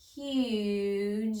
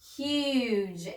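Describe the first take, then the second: First: The sounds are blended slowly and stretched out. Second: The word is said quickly as one unit. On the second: "Say it fast"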